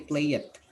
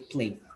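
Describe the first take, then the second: First: The ending is an extra syllable, like 'it'. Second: The ending is a short 'd' with no extra syllable. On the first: The speaker calls it wrong. "we don't say play it" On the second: The speaker calls it right. "we say played"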